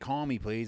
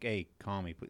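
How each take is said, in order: First: It sounds tense and urgent, demanding. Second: It sounds relaxed and casual, no hurry.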